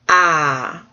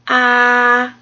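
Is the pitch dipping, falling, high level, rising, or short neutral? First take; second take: falling; high level. First: The pitch falls sharply from high to low. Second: The pitch stays high and level. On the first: "did I do the down one?" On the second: "there's one that's just straight across and it's high"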